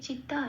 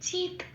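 First: The final t is half and blends onward. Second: The final t is fully and sharply stopped. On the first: The speaker calls it right. "চিত্তা বলে একটু মিলিয়ে দিয়ে চিত্তা এরকম ভাবে উচ্চারণ করতে হবে" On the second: The speaker calls it wrong. "পুরো চিত বলতে পারবো না"

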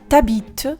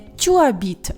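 First: The vowel of tu is dropped entirely. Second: The vowel of tu is fully pronounced. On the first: "а «табіт». Так простіше і швидше сказати" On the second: "не «тюабіт»"

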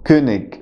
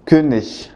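First: The ending uses the southern German pronunciation. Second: The ending uses the northern German pronunciation. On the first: "بالجنوب يقولون كونيج" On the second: "بالشمال كونيج"

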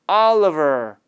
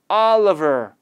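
No difference in how they are said.

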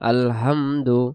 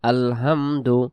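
First: The h is a soft, light breath. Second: The same.

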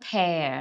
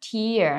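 First: It uses the verb pronunciation of the word. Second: It uses the noun pronunciation of the word. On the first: To rip something apart. "ถ้าเป็นกริยาจะอ่านว่า" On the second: A drop of water from the eye. "ถ้าเป็นคำนาม เขาจะเป็นคำว่า"

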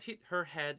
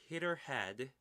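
First: Each word is said separately and fully. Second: The words are run together smoothly. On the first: The speaker calls it wrong. "hit her head 이렇게는 잘 안 읽고요" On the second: The speaker calls it right. "이렇게 좀 이어서 읽는 경향이 좀 있죠"

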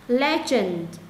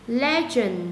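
No difference in how they are said.

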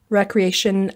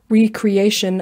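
First: The word is said as 'rec-reation'. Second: The word is said as 're-creation'. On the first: It means spending leisure time. "Recreation as in spending leisure time" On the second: It means creating something anew. "recreation as in creating this new universe"

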